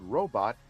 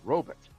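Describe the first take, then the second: First: Robot is said the ordinary modern way. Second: Robot is said the old-fashioned, mid-century way. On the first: "the word robot" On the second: "a lot of folks did that in the fifties and sixties"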